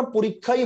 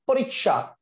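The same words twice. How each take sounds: First: "পরীক্ষাই" said porik-khai, with a doubled kh; no sh in "পরীক্ষাই", just a Bengali kkh; Bengali pronunciation. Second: "পরীক্ষা" said porik-sha, with a sh sound; Hindi-style pronunciation. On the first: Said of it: "বাংলায় আমরা পরীক্ষাই বলি". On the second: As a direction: put a k-sh cluster in "পরীক্ষা", as in Hindi. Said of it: "তাহলে এটা কি উচ্চারণ হয়ে গেল". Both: Shown as a demonstration.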